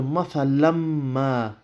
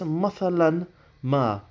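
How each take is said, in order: First: The n merges into a nasal m sound. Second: The n sound is pronounced before ma. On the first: The speaker calls it right. "so you go mathalamma. Now there is slight ghunna there" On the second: The speaker calls it wrong. "you won't pronounce the un sound there"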